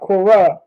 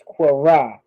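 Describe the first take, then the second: First: Kwara said with a plain k sound; the wrong way to say Kwara. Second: Kwara said slowly with a throaty kw onset; the correct way to say Kwara, drawn out; careful slow Kwara; right Kwara. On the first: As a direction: Kwara with a hard English k. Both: Shown as a demonstration. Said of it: "not Kwara, it's Kwara".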